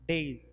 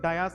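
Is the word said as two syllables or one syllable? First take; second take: one syllable; two syllables. First: The word is said as one syllable, days. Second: The word is said as two syllables, dai-as. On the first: This is the standard pronunciation. The speaker calls it right. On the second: This is how it is said in Indian English. The speaker calls it wrong.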